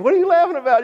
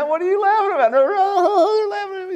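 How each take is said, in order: First: High-pitched imitation of a puzzled onlooker. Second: Very high, squealing mock laughing fit; imitating helpless laughter. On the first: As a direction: ask in a put-on high voice. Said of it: "You ever seen anybody just laughing, laughing, laughing really hard". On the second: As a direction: try to talk through put-on, high-pitched laughter. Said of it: "and you start laughing?".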